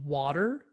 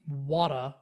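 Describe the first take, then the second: First: It is said in a standard American accent. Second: It is said in a Philadelphia accent. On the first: "instead of saying water" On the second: "she said water or something like this"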